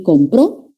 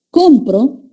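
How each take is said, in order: First: "compró" stressed on the final PRÓ; com-PRÓ, weight on the ending; stress on last syllable. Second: "Compro" stressed on COM, present tense; COM-pro, first syllable higher and stronger. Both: Shown as a demonstration. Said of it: "la ubicación del acento".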